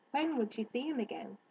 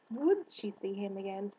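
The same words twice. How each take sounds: First: "When" stressed, questioning the timing. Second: "Would" stressed, questioning whether at all. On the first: Narrator voices Harriet wondering, stress on "When". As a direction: lean on "When" and let it fall. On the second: Narrator voices Harriet doubting, stress on "Would". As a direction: lean long on "Would". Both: A narrator's reading.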